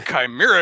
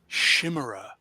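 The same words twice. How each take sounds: First: The word is given a Greek-based pronunciation. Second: The word is given a French-style pronunciation. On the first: The speaker calls it right. "It's chimera because it's a freaking Greek word" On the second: The speaker calls it wrong. "they insisted on pronouncing it the French way"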